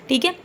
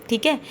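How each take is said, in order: Both takes have the same delivery.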